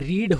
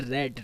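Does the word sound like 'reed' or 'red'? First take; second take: reed; red. First: The vowel is long, like 'reed'. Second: The vowel is short, like 'red'. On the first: It is the present form of the verb. "First form में आपकी रीड होगा उच्चारण" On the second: It is the past or past participle form. "लेकिन second third में रेड"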